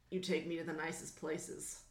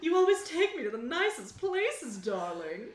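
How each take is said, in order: First: Low, soft, gruff character voice. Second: Put-on rehacked young star voice. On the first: Acted. Cowboy star flattering his date, low gruff voice. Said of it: "Can I go gruff and make it make sense". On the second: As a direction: pitch it up, dropping on the last word. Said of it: "need to rehack my voice then".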